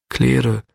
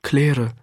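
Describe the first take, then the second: First: A sick man calling Claire. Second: Claire nochmals gerufen; calling again. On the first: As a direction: call the name out weakly from a sickbed. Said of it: "rief dieser". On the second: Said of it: "und noch einmal". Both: A narrator's reading.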